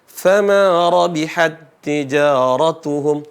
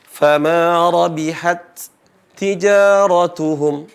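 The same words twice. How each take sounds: First: The first t merges into a doubled t. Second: The two t sounds are pronounced separately. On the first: The speaker calls it right. "Tapi diidgham" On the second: The speaker calls it wrong. "Bukan dibaca"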